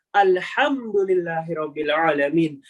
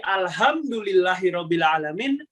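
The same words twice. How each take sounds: First: "alhamdulillahirobbilalamin" recited slowly with measured, lengthened sounds; correct tajweed recitation. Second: Said in the usual way. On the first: Shown as a demonstration. Showing beginners the correct reading, slow tartil of "alhamdulillahirobbilalamin". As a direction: draw out "alhamdulillahirobbilalamin" in careful tartil. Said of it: "sesuai dengan cara membaca yang benar". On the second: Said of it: "Yang awalnya masih".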